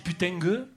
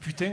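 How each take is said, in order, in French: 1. Le mot se termine avec un son g ajouté. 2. Le mot se termine sans son g ajouté. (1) "on met des G à la fin" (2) "pour dire par exemple putain"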